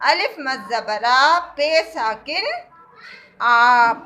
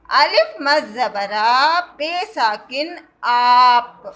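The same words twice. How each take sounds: First: آ held moderately long, slow; careful classroom reading; long aa demo. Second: آ and آپ drawn out very slowly; teacher re-modelling the long vowel; slower long aa. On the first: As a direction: model the word آپ clearly. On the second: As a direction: repeat it even slower so they hear the stretch. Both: Shown as a demonstration. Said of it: "الف کو ہم کھینچ کر پڑھتے ہیں".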